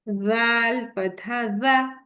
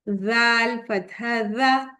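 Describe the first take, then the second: The two takes are said the same way.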